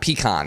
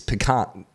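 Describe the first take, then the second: First: It uses the pronunciation rejected in Texas. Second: It uses the pronunciation accepted in Texas. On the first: Other regions say it this way. The speaker calls it wrong. "it is not pecan" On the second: Texans say it this way. The speaker calls it right. "it's pecan"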